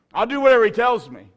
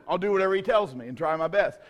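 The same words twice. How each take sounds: First: Earnest declaration with whatever hit hard; emphatic vow. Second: Said in the usual way. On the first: Shown as a demonstration. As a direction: stress on whatever, louder and higher.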